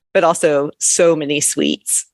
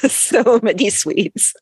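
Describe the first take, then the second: First: Said in the usual way. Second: Laughing through the words, slow and high. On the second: Real, not acted. Laughing repeat of the phrase.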